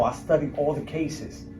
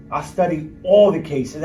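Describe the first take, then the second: First: Said in the usual way. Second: "I studied all the cases" said louder, with weight on "all"; emphatic repeat. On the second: Real, not acted. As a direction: lean hard on "all" the second time. Repeating his point for emphasis.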